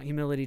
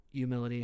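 First: "humility" with the H at the front; sounded H. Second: "Humility" said as "you-mility"; silent H. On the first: Host announcing today's topic, H sounded in "humility". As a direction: say "humility" as "hyoo-mility". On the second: Host conceding the other version, H dropped from "Humility". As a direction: drop the H from "Humility". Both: Shown as a demonstration. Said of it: "however you wanna say it".

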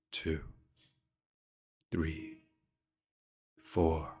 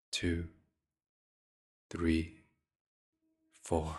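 No difference in how they are said.

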